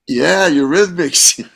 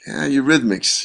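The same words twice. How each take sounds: First: Slow, high-pitched cheer; thrilled, drawn-out endorsement; excited approval. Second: Mild, lukewarm musing; unimpressed. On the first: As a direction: draw out an enthusiastic yeah. Thrilled it sounds like AC/DC. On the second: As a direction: think it to yourself without much enthusiasm. Doubtful thoughts before reaching studio. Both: Retold or imitated.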